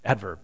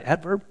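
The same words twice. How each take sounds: First: Adverb. falling and low, settled and confirmed. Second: Adverb? rising up at the end, asking the room; questioning rise. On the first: Pastor confirming the word after help from the congregation, settled fall. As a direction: state Adverb. with a firm falling tune, quieter. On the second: Pastor asking the congregation to confirm the grammar, questioning rise. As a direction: ask Adverb? as an unsure question, tune rising. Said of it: "Is that right?". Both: Real, not acted.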